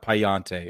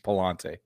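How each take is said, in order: First: The middle consonant sounds like a Y. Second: The middle consonant sounds like an L. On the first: The speaker calls it wrong. "It's not Payante" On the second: The speaker calls it right. "It's two L's. It's Palante"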